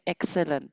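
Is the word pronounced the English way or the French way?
English. It is pronounced with English sounds and stress. "en anglais c'est excellent"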